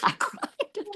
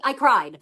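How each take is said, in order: First: Breathless whisper, high and strained; whispered confession. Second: Said in the usual way. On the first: Real, not acted. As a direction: whisper it as if still embarrassed. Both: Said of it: "tears coming down my face".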